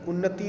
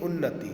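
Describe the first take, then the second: No difference in how they are said.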